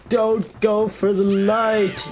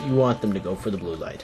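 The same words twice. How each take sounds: First: Slow, higher mock cartoon plea; hammed-up slow warning cry. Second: Said in the usual way. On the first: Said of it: "Unlike most of the cartoons, which is like".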